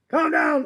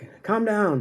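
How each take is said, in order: First: It is said loudly and firmly. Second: It is said quietly and hesitantly.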